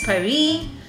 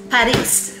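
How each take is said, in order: First: The final S is silent. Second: The final S is sounded. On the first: This is how the locals say it. "they pronounce it as Paris" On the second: This is how a Filipino prefers to say it. "mas gusto ko may S"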